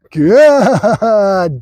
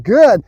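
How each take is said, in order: First: GOOD stretched out very long, falling; duration marker. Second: Said in the usual way. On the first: Real, not acted. Trainer rewarding the wait, long drawn-out GOOD. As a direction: hold the vowel of GOOD well past normal. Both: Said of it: "The good duration marker".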